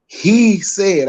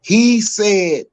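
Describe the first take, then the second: First: HE said, with HE hit higher and louder; He said, leaning hard on He; stress on HE. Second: He said, with He raised and pushed loud; He said, He clearly stressed. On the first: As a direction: punch the word He hard. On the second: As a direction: hammer the He to make the point. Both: Retold or imitated. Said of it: "I put emphasis on he".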